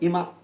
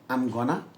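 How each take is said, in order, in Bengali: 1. পুরো বাক্যাংশটা চেপে 'imma' হয়ে যায়। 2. 'Going to' ছোট হয়ে 'gonna' হয়। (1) "অনেক সময় আই এম গোয়িং টু কে ইমা বলবে" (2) "গোয়িং টু মানে গনা"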